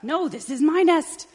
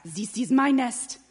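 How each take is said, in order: First: High, loud territorial protest; quarrelling chicken. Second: Put-on loud, slow, higher French accent; French duck protest. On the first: Acted. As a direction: shout back, claiming it as yours. Chicken fights duck for nest. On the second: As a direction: claim it indignantly with a French accent. French duck claims the nest.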